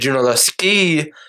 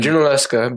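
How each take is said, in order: First: The name ends with an 'ee' sound. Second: The name ends with an 'uh' sound. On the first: This is the older, original form of the name. "it was actually Junaluski is how they pronounced it" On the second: This is the later, everyday form of the name. "We're just going to say Junaluska. That's close enough"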